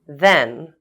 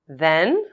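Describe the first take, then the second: First: The voice falls at the end. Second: The voice rises at the end.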